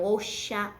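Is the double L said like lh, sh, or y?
sh. The double L sounds like sh. This is how it is said in Argentina. "na Argentina vai ser um som de chá"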